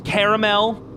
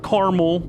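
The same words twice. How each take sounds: First: The middle vowel is pronounced, giving three syllables. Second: The middle vowel is dropped, giving two syllables. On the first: The speaker calls it right. "it's caramel" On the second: The speaker calls it wrong. "It's an extra A in there that you're just ignoring"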